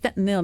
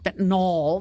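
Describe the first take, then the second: First: The last syllable sounds like 'nil'. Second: The last syllable sounds like 'nol'. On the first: The speaker calls it right. "that's fentanyl" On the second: The speaker calls it wrong. "not fentanyl. There's no O in fentanyl"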